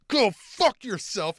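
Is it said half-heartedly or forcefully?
forcefully. It is said with strong, committed force.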